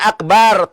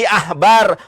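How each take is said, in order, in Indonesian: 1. Konsonan di tengahnya bunyi k keras. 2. Konsonan di tengahnya bunyi h berdesah. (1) "Dibacanya bukan akbar" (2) "tapi ahbar"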